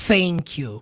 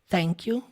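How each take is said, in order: First: The first sound is an F sound. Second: The first sound is a soft, subtle TH. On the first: The speaker calls it wrong. "não é thank you com som de F" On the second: The speaker calls it right. "é igual thank you"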